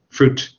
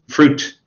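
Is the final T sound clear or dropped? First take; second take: clear; clear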